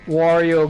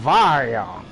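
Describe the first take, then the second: First: The name begins with a W sound. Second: The name begins with a V sound. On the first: This is the English name. "In English, we pronounce the W's with a W, not a V" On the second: This is the German name. "does the German Wario go Vario?"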